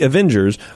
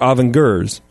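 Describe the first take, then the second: First: It is said in a plain standard pronunciation. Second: It is said in a European-style pronunciation.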